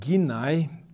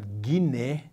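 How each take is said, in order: First: The word ends with an 'ai' sound. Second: The word ends with an 'e' sound.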